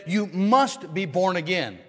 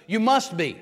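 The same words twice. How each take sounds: First: "must" pressed slow and firm; stress on must. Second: "must" hit hard, the rest light; stress on must. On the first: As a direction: lean on "must" in "You must be born again". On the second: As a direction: punch "must" in "You must be". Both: Shown as a demonstration. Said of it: "notice the emphasis".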